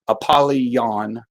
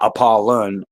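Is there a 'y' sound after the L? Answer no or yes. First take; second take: yes; no. First: A 'y' glide follows the L sound. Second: No 'y' glide follows the L sound. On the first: The speaker calls it right. "I think that that book is Apollyon" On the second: The speaker calls it wrong. "not Apollon"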